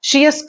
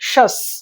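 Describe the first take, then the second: First: The ending is said as two syllables, shee-us. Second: The ending is said as one syllable, shus. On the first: The speaker calls it wrong. "షియస్ కాదు" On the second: The speaker calls it right.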